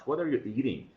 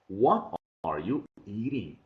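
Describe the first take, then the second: First: Said in the usual way. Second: Slow, word-by-word teacher repetition of "What are you eating"; "What are you eating" drawn out for dictation; slow model sentence. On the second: Shown as a demonstration. Teacher repeats sentence slowly for dictation.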